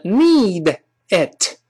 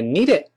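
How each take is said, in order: First: "need it" as two words, released d and t; unlinked, careful "need it"; separate words. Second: "need it" run into one word, "nee-dit"; quick, joined-up "need it"; linked reading. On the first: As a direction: say "need", then "it", apart. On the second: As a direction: link d onto "it", final t unreleased. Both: Shown as a demonstration. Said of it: "连读变成".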